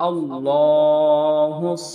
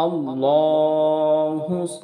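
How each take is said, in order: No difference in how they are said.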